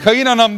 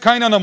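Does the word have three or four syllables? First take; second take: four; three. First: The word is said with four syllables, vowel kept. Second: The word is said with three syllables, vowel dropped. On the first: "kayınanam diye sen ayırabilirsin" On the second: "Biz onu yıllarca kaynattık, kaynanam oldu"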